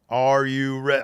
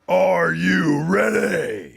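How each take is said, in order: First: It is said in a plain, calm voice. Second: It is said loudly with hyped-up energy. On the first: The speaker calls it wrong. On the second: The speaker calls it right.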